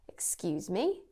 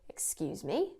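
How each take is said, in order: Both takes have the same delivery.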